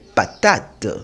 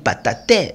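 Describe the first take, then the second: First: The final e is silent, two syllables. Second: The final e is pronounced as a syllable. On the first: The speaker calls it right. "De même pour le mot patate" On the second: The speaker calls it wrong. "Je ne vais pas lire pataté, non"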